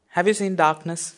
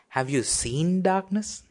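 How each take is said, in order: First: It is said plainly, with no special emphasis. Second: One word, likely seen, is strongly emphasized.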